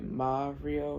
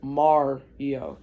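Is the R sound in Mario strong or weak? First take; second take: weak; strong. First: The R is weak, with an open A vowel. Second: The R sound is strongly emphasized. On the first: This is how other Americans say it. "other Americans um pronounce it with A's" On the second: This is how a Michigander says it. "I say Mario with an like R"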